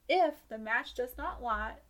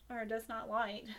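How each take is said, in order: First: Slow Southern drawl on the rule; country twang reading aloud; country accent. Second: Said in the usual way. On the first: Shown as a demonstration. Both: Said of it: "that country voice really came out".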